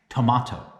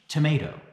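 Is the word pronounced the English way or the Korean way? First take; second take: Korean; English. First: It is pronounced the Korean way. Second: It is pronounced the English way. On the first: "let's consider this word in Korean" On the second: "Take this word in English"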